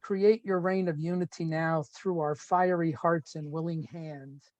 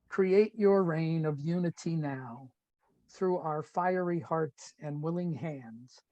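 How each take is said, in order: First: It is read at a normal pace. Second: It is read more slowly.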